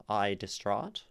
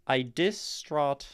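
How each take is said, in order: First: Said in the usual way. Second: Slow "I distraught", weight forced onto "dis"; forced wrong stress. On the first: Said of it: "like, referring to oneself". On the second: Shown as a demonstration. Teacher showing a word that fits the meter badly, forced stress. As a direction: break "distraught" up, leaning hard on "dis". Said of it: "try to force weight onto dis".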